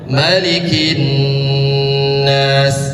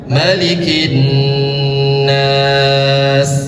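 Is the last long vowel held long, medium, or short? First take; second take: short; medium. First: The last long vowel is held for two counts. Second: The last long vowel is held for four counts. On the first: "dua harkat" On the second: "Empat harkatnya"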